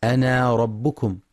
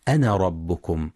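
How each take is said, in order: First: أنا ربكم with the alif after noon wrongly held long, anaa; أنا ربكم with a lengthened final alif. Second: أنا ربكم with a short na, the alif dropped in joining; أنا ربكم with no lengthened alif. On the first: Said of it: "يخطئ من يقرأ أنا ربكم بإثبات". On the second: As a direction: say أنا ربكم as ana rabbukum, clipped. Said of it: "والصواب حذفها وصلا". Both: Shown as a demonstration.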